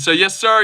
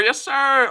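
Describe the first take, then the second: First: Said in the usual way. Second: "Yes, sir" jumps much higher, drawn out on "sir". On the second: Acted. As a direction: sing "Yes, sir" up high, stretching "sir". Repeats the greeting, pitched up.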